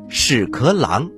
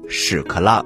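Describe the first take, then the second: First: The word has its standard pronunciation. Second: The word has its everyday colloquial pronunciation. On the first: This is the officially correct reading. "正音应该读作屎壳郎" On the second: This is the everyday spoken form, which sounds funny. "日常口语当中，宝林叔叔喜欢管它叫屎壳郎，觉得读这个音特别好笑"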